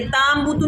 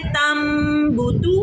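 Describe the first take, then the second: First: ताम बूतू with a long AA in ताम; ताम बूतू with an over-long first vowel; wrongly lengthened vowel. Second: तम बूतू with a short A and long hummed M; clipped ता, drawn-out nasal M in तम बूतू; short vowel with ghunna. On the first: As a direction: stretch the ता instead of the M, then बूतू. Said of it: "ताम बूतू नहीं पढ़ेंगे". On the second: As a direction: hold the M of तम in the nose, then say बूतू. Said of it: "हम इसको लंबा नहीं करेंगे". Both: Shown as a demonstration.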